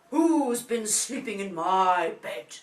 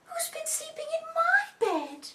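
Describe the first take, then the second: First: Big, loud, slow bear father; deep Daddy voice. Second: Very high, loud mummy voice; Mummy bear. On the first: Daddy bear finds his bed messed up, deep booming voice. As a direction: boom each word out slowly. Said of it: "in his deep voice again". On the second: Mummy bear finds her bed messed up, high indignant voice. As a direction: exclaim it high as a mother bear. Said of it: "Mummy goes into her room". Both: A narrator's reading.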